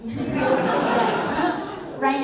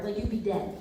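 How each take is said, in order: First: Very slow, laughing drawl. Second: Said in the usual way. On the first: Shown as a demonstration. Repeating the joke to the audience, laughing slowly. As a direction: stretch it out through a laugh.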